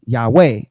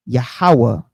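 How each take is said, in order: First: Yahweh said as two syllables, YAH-way. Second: Yahweh said as three syllables, yah-ha-wah. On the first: Teaching the Greek two-syllable Yahweh. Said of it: "it's two syllables". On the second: Teaching the modern three-syllable Yahweh. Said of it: "which is three syllables?". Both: Shown as a demonstration.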